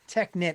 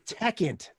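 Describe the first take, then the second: First: The word ends with a 'nit' sound. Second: The word ends with an 'int' sound. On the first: The speaker calls it wrong. "It's not Technit" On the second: The speaker calls it right. "That's it"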